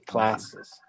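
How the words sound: It is said with an American accent. "but in the United States they say"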